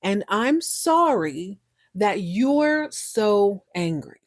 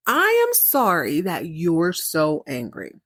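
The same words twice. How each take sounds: First: Very slow, drawn-out quote; slowly relayed apology; retold apology. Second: Slow, with "I am" held and stressed; "I am" punched in mock apology; pointed repeat. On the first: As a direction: stretch "sorry" and "so", trail off on "angry". Quotes the apology that angers her. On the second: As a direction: hit "I am" hard, then draw out "sorry".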